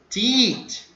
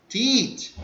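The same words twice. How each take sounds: Both takes have the same delivery.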